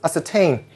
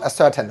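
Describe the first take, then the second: First: The stress is on the last syllable. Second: The stress is on the first syllable. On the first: The speaker calls it right. "this is ascertain. Ascertain, just like the word entertain" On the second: The speaker calls it wrong. "this word is not ascertain"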